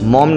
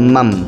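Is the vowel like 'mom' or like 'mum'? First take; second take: mom; mum. First: The vowel is an open 'o' sound, like mom. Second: The vowel is a short 'u' sound, like mum. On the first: The speaker calls it wrong. "মম না" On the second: The speaker calls it right. "It's মাম"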